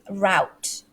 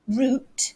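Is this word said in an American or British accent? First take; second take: American; British. First: It is said with an American accent. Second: It is said with a British accent. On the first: "but the Americans they might say route" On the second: "So the British way"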